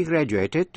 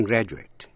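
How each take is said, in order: First: Graduated as "GRA-joo-ay-ted"; verb ending "ate". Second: Graduate as "GRA-joo-it"; noun ending "it". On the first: Teacher's verb example, graduated with a clear A. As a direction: give graduated a full "ay" vowel near the end. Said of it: "nếu là verb đọc là A". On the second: Teacher's noun example, graduate ending in "it". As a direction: say graduate with a short, weak last vowel. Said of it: "nếu là danh từ đọc là it". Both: Shown as a demonstration.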